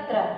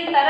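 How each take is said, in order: First: त्र with त run straight into र; half consonant. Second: तर with a full vowel after त; full consonant. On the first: Teacher shows pupils the joined letter, clustered त्र. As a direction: drop the vowel after त in त्र. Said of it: "ये आधा पढ़ा जाएगा". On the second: Teacher shows pupils the unjoined letters, full-vowel तर. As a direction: keep त whole before र in तर. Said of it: "जब तक मैं इसको आधा ना कर दूं". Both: Shown as a demonstration.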